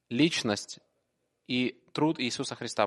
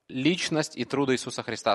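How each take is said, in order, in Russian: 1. В этой фразе заметно другая, подражательная интонация. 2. В этой фразе обычная, естественная интонация.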